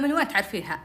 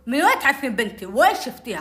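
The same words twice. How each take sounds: First: Said in the usual way. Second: Retold loud, puffed-up demand; raised-voice mock confrontation; loud, blustering. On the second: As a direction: imitate a father blustering at someone. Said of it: "كذا بصوت عالي نافخ عليها".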